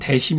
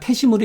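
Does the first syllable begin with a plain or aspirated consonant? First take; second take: plain; aspirated. First: The first syllable starts with a plain d sound. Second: The first syllable starts with an aspirated t sound. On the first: The speaker calls it wrong. "대심이 아니라" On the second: The speaker calls it right. "태심으로 읽는 거예요"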